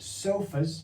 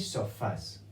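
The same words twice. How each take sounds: First: The stress is on the first syllable. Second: The stress is on the last syllable. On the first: The speaker calls it wrong. "Here it would not be sofas" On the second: The speaker calls it right. "it would be sofas"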